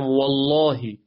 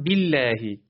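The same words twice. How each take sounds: First: والله with a thick, dark L; heavy lam. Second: بالله with a thin, clear L; light lam. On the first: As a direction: say والله with full, heavy Allah. (لامِ والله درشت و پر) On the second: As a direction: say بالله with light L and fronted vowel. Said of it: "پس اینجا نازکه". (لامِ بالله نازک) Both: Shown as a demonstration.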